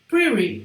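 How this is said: The t sounds like a quick r-like tap. "O americano fala pretty... vai usar como se fosse um R"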